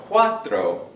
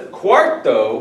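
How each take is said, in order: First: "cuatro" slowed, said kwa-tro; no r before t. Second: "cuarto" slowed, with the r before t; kwar-to, drawing out the first syllable of "cuarto"; stressed middle r. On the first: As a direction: draw out "cuatro" with the r after t. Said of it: "is the number four". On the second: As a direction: lean on the r in "cuarto". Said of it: "cuarto with an R". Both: Shown as a demonstration.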